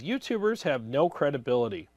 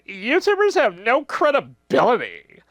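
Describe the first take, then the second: First: It is read in a plain, ordinary voice. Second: It is read in an exaggerated put-on voice. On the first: The speaker calls it wrong. "I'm reading it in the wrong voice" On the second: The speaker calls it right. "I need to get a Karen voice for this one"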